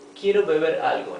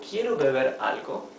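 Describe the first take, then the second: First: It is said as a plain statement. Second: It is said as a question. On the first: The speaker states a wish to drink something. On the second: The speaker asks whether they want to drink something.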